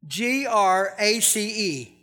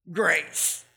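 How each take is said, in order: First: G R A C E spelled letter by letter, slowly; each letter of G R A C E set apart for emphasis. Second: Said in the usual way. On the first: Shown as a demonstration.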